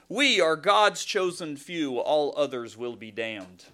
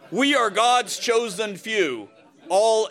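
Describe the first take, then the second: First: Said in the usual way. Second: Slow, loud, laughing through the words; laughing mock recital. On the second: Pastor jokes about the poem on the church website, laughing. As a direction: read it grandly while cracking up.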